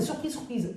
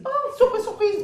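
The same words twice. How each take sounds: First: Said in the usual way. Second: High, loud exclamation of surprise; mock surprise. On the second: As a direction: squeal it like a staged big surprise. Acts out a mock surprised reaction. (surprise jouée, voix très aiguë et forte)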